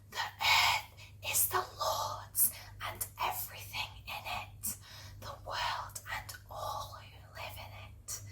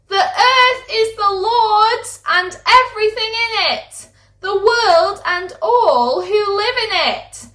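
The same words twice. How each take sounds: First: It is whispered very quietly. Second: It is shouted loudly.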